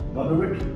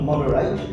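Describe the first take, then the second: First: The last syllable is short and weak. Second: The last syllable sounds like a full 'eight'. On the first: The speaker calls it right. "There's no eight because only stressed one syllable" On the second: The speaker calls it wrong. "The word is not moderate"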